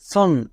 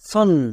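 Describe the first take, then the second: First: The vowel falls between 'ah' and 'o'. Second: The vowel falls between 'ah' and 'o'.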